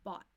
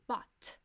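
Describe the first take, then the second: First: The final T is stopped without a release. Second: The final T is fully released with air. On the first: The speaker calls it right. "what's called a stop T" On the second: The speaker calls it wrong. "So it won't be bought"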